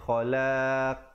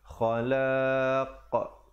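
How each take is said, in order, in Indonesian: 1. Huruf penutup memantul dengan bibir melebar, datar. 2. Huruf penutup memantul dengan bibir membulat. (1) "Jangan kita pepeskan jadi khalaq. Tak betul" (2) "Yang betulnya khalaq"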